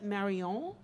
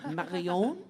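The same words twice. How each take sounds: First: The name has an unconvincing French accent. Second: The name has a more convincing French accent. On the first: The speaker calls it wrong. "that was very bad French accent today" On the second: The speaker calls it right. "That was better"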